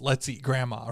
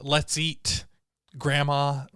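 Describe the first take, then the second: First: There is no pause before grandma. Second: There is a pause before grandma.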